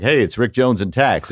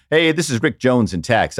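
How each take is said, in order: First: A hint of the colleague from tax on the phone; imitating Rick Jones. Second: The real Rick's voicemail hello; a casual outgoing-message hello; voicemail greeting. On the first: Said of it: "I can do that voice". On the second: Retold or imitated. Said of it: "it would be like".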